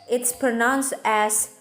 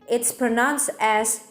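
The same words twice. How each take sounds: No difference in how they are said.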